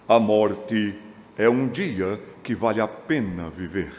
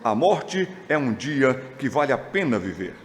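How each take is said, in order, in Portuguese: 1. É dito com uma voz alterada e dramática. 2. É dito com uma voz de fala comum.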